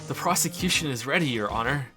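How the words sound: It is said in an amused, chuckling voice.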